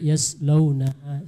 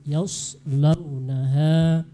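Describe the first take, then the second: First: The s-sound is a plain, light s. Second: The s-sound is a heavy, emphatic s. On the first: The speaker calls it wrong. "terdengar sin" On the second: The speaker calls it right. "Padahal dia shad"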